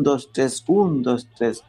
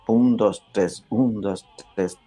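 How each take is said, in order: First: "dos, tres, un, dos, tres" with the folk accents; pasillo count. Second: "un" hit, "dos, tres" lighter and lower; marked waltz count. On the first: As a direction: count "un, dos, tres" the people's way, the weight moved. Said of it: "nuestro pueblo le da a ese mismo". (contando "un, dos, tres" a la manera del pasillo popular) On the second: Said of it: "el vals es marcado". (contando "un, dos, tres" con acento en "un") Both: Shown as a demonstration.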